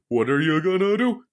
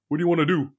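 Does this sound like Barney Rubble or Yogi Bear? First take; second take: Yogi Bear; Barney Rubble. First: It is a Yogi Bear impression with lilt. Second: It is a Barney Rubble impression.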